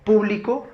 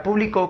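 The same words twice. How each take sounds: First: "público" stressed on the first syllable, PÚ; esdrújula stress. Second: "público" stressed on the last syllable, pu-bli-CÓ; aguda stress. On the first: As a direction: say "público" as PÚ-bli-co. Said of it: "que es esdrújula y lleva tilde". ("público" con acento en la primera sílaba, pú) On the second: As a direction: put the force on the final CÓ of "público". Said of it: "que es aguda". ("público" pronunciado como aguda, con acento en la última sílaba, có) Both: Shown as a demonstration.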